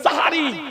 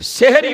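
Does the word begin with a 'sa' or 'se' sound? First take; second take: sa; se. First: The first syllable has an 'a' vowel. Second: The first syllable has an 'e' vowel. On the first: The speaker calls it right. "সিনের উপরে জাবার দিয়ে বলতে হবে।" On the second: The speaker calls it wrong. "এটা ভুল শব্দ।"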